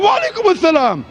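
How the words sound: It is said warmly, with heartfelt feeling.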